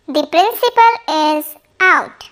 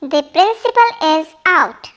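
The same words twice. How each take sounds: First: Slow it down, every word clear; unhurried model sentence for learners; slow, careful repeat. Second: Said in the usual way. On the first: Shown as a demonstration. Teacher repeating the sentence slowly for students. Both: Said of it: "teacher models sentence twice".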